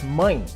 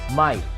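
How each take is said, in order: First: The vowel is nasal. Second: The vowel is plain and not nasal. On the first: The speaker calls it right. "it's mine, nasal sound" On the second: The speaker calls it wrong. "It's not simply my"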